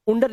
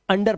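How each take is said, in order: First: "उंडर" starting with "oon"; spelling-style U opening "उंडर"; wrong U sound. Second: Said in the usual way. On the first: Shown as a demonstration. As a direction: misread under as "उंडर", OON-der. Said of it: "उंडर नहीं पढ़ते". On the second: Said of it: "इसे अंडर पढ़ते हैं".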